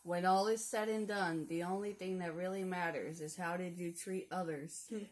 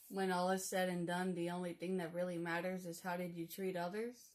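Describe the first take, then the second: First: It is said with lively, energetic delivery. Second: It is said in a plain, ordinary way.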